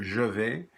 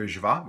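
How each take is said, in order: First: "je vais" with a clear "je" and "vais" ending in an open e sound; international French. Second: "Je vais" clipped to ʒ vɑ, with "vais" ending in an open ah; Louisiana French. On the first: Teacher shows class the international form, careful standard pronunciation. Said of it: "Internationally, you would hear". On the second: Teacher shows class the local Louisiana form, ʒ vɑ. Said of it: "we would say". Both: Shown as a demonstration.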